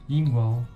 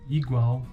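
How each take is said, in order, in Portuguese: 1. A primeira vogal é nasalizada. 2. A primeira vogal é oral.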